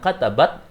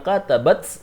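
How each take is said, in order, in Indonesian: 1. Huruf t terakhir tidak terdengar hembusan napas. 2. Huruf t terakhir dilepas dengan hembusan napas yang terdengar. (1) "itu bukan hames" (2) "maka itu adalah hames dan itu harus kelihatan"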